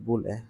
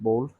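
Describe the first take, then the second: First: It sounds like 'boo-lee'. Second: It sounds like 'bowl'. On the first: The speaker calls it right. "it's pronounced as bulle" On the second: The speaker calls it wrong. "not bowl"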